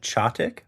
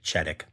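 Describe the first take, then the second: First: The first syllable does not sound like 'ched'. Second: The first syllable sounds like 'ched' in cheddar. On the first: The speaker calls it right. "sent me the pronunciation of the town name so I don't look like a big dummy" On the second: The speaker calls it wrong. "I one thousand percent would have said Chedick. Chedick like cheddar"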